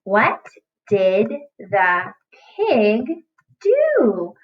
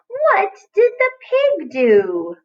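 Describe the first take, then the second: First: Said in the usual way. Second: High, slow, sing-song question; wondering storytime voice; playful high slow reading. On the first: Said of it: "Read it with me". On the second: Shown as a demonstration. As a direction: stretch the question out like a game for kids. Teacher rereads the sentence playfully.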